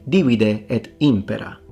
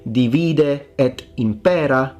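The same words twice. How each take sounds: First: Divide is stressed on its first syllable. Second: Divide is stressed on its second syllable. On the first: The speaker calls it right. "you say divide et impera. That's the rule of the antepenult" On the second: The speaker calls it wrong. "you don't say divide et impera"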